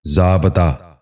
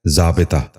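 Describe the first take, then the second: First: ضابطہ with short "a" in the middle, "zaa-ba-taa"; wrong pronunciation. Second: ضابطہ with short "i" in the middle, "zaa-bi-taa"; correct pronunciation. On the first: Teacher showing viewers the mistake, wrong pronunciation. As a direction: say ضابطہ as zaabataa. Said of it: "یہ غلط تلفظ ہے". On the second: Teacher giving viewers the model, correct pronunciation. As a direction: say ضابطہ as zaabitaa. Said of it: "درست تلفظ ہے". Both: Shown as a demonstration.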